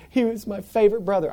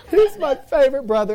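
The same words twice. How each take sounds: First: Higher-pitched mild mock wail; mock crying. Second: Loud, high hammed-up wail; mock crying. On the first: Sister crying over her hurt brother, mildly mock-tearful. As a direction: lightly imitate a crying sister. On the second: Sister crying over her bleeding brother, mock wailing. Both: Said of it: "and they're crying".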